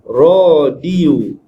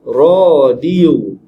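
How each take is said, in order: The two takes are said the same way.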